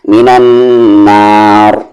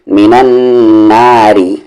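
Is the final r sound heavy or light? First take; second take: heavy; light. First: The phrase ends on a stopped, heavy r. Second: The phrase continues with a light r plus vowel. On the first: The reciter pauses on the word. "Heavy" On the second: The reciter continues without pausing. "Light"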